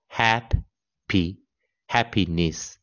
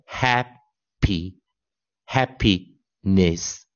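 First: "happy, happiness" said again very slowly with hap stressed; teacher repeating the model slowly; slow model pronunciation. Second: "happy, happiness" very slow, stress on the first syllable hap; teacher modelling each syllable for the class; slow model pronunciation. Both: Shown as a demonstration. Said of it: "我们这样念".

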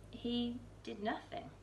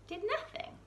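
First: Said in the usual way. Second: Much higher, disbelieving repeat of nothing; incredulous echo. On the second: A narrator's reading. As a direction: echo it as if you can't believe it.

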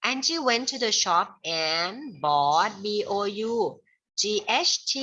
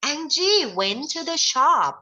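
First: "Angie went to the shop" read slowly at normal loudness; steady pace for writing it down; slow dictation. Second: "Angie went to the shop" read slowly, high and loud; bright classroom model reading of "Angie went to the shop". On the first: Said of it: "เขียนว่าไปซื้อเค้กก็แล้วกันเนาะ". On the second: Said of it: "Angie ไปที่ร้าน". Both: Shown as a demonstration.

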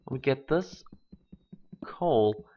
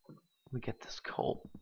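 First: Said in the usual way. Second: Whispered, almost no voice. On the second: Real, not acted. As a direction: sneak the words out in a whisper. Sneaking for coal quietly.

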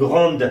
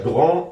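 First: "grande" with a clearly sounded final d; final consonant pronounced. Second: "Grand" with a silent d; final consonant silent. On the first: Teacher showing the feminine form, "grande" ending in a clear d. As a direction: finish "grande" on an audible d. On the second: Teacher showing the masculine form, "Grand" with the d dropped. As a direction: end "Grand" on the nasal vowel, no d. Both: Shown as a demonstration.

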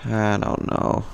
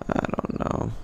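First: Said in the usual way. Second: Breathy defeated whisper. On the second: Real, not acted. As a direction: whisper it to yourself. Repeats line, then whispers it.

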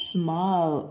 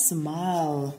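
First: Said in the usual way. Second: "Smile" with a silent final E and a curled L; "Smile", E câm, L cong lưỡi; careful smile. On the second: Shown as a demonstration. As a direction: end "Smile" on a curled-tongue L, no final vowel. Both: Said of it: "E đến cuối từ bị câm và L cong lưỡi".

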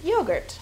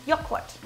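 First: Said in the usual way. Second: "Joghurt" said the German way, YO-gurt with a long o; German pronunciation. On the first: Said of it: "or in German, Joghurt". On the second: Shown as a demonstration. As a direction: say "Joghurt" as a German would, stress on the first syllable. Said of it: "or in German".

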